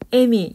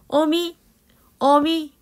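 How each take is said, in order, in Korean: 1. 첫 모음은 전설모음 'e'예요. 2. 첫 모음은 후설모음 'eo'예요.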